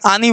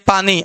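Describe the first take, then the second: First: The word's first consonant is left out. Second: The word begins with its first consonant. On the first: The speaker calls it wrong. "आनी बोलते हैं कभी कभी, छोटे बच्चे" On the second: The speaker calls it right. "जैसे पानी"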